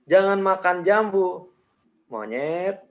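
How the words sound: There is a pause after jambu. "jedanya gue kasih setelah jambu"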